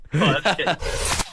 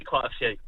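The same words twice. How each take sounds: First: "Quite a few" drawn out very slowly and teasingly; slow mock-knowing repeat. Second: Said in the usual way. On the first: Joking about impolite Englishmen.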